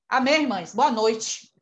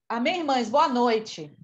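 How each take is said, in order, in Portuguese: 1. É dito com um tom zangado, irritado. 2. É dito com um tom neutro, comum. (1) "parece que eu estou enraivada" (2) "sai normal, né?"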